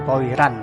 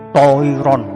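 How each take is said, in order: First: The R is pronounced thin and light. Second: The R is pronounced thick and heavy. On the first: The speaker calls it wrong. "jadi bukan toiran" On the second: The speaker calls it right. "tapi toiron"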